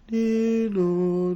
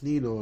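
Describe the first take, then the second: First: The sound is drawn out and elongated. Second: The sound is said at a regular, quick pace. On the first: The source is moving further into the distance. "the sound becomes elongated, stretched" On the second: The source is coming towards you. "it's like it's coming towards you at the regular rate of knots"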